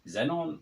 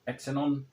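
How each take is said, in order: First: The word begins with a z sound. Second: The word begins with an eks sound. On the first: "how do you pronounce that?" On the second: "I've always called this Exenon"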